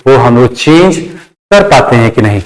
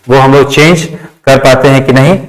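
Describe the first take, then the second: No difference in how they are said.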